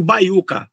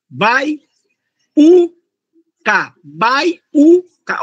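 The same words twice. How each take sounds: First: Said in the usual way. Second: "baiuca" chopped into bai-u-ca with long gaps, higher; syllable by syllable. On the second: Shown as a demonstration. Teacher isolating the U for students, "baiuca" syllable by syllable. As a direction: set the "u" of "baiuca" apart as its own beat. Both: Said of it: "o U ficou isoladinho na sílaba".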